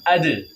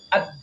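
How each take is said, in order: First: The final d is released with a short bounce. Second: The final d is stopped without any bounce. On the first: The speaker calls it right. "Harus kita pantulkan" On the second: The speaker calls it wrong. "itu kurang tepat karena dia punya sifat tambahan kolkolah"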